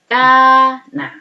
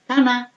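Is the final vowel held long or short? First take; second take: long; short. First: The vowel after k is long, two beats. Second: The vowel after k is short, one beat. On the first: "ketika sudah ketambahan alif menjadi kana" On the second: "Ketika belum ada alif menjadi kana"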